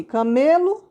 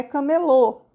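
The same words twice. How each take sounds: First: "camelo" stressed on ME; "camelo" with a weak final o; stress on middle syllable. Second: "camelô" stressed on the final LÔ; "camelô" with the weight at the end; stress on final syllable. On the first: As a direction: lean on the ME of "camelo". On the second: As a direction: land on a closed, strong LÔ in "camelô". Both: Shown as a demonstration. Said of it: "Tá vendo a diferença?".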